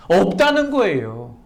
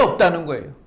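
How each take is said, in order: First: 없다는 거예요 stated slowly and firmly, falling at the end; firm answer. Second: 없다는 거예요 asked as a question, pitch lifting at the end; questioning tune. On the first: Preacher answering his own question, 없다는 거예요 as a firm statement. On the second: Preacher quizzing the congregation, asking 없다는 거예요 as a question. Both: Shown as a demonstration. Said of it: "있다는 거예요? 없다는 거예요?".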